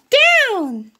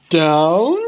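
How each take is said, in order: First: High little pig call; Piggy calling the move to Gerald, high voice. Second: Gerald voice. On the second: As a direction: drop down for the elephant. Gerald echoes. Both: Acted.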